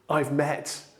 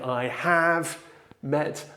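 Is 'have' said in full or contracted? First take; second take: contracted; full. First: The word have is contracted to ve. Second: The word have is said in full. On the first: The speaker calls it right. "we can say" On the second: The speaker calls it wrong. "instead of them saying"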